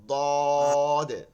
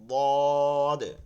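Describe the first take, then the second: Both takes have the same delivery.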